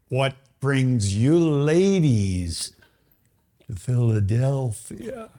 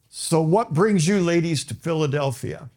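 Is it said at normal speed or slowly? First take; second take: slowly; normal speed. First: It is said slowly, in slow motion. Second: It is said at normal speed.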